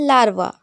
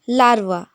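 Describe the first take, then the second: No difference in how they are said.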